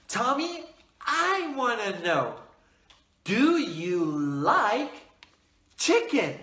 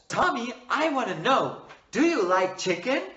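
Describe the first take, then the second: First: It is spoken at a moderate pace. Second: It is spoken quickly. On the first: The speaker calls it right. "Speak with a moderate speed" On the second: The speaker calls it wrong. "Do not speak fast"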